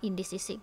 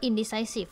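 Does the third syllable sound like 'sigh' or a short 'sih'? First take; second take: sih; sigh. First: The third syllable has a short 'sih' vowel. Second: The third syllable has a long 'sigh' vowel. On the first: The speaker calls it wrong. "ไม่ได้อ่านว่า" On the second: The speaker calls it right. "ตัวนี้นะอ่านว่า"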